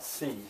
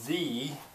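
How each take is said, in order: First: The word ends with a weak uh vowel. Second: The word ends with an ee vowel. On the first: The speaker calls it wrong. "it's not the" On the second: The speaker calls it right. "it's going to be an E sound because it's coming into a vowel"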